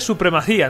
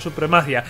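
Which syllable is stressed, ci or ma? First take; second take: ci; ma. First: The stress falls on the syllable ci. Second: The stress falls on the syllable ma. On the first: The speaker calls it right. "se dice supremacía ... tiene tilde la I" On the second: The speaker calls it wrong. "no supremacia"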